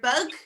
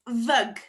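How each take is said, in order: First: The word begins with a B sound. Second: The word begins with a V sound.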